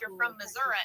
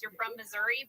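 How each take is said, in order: First: It is said in a rural Missouri accent. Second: It is said in a Saint Louis accent.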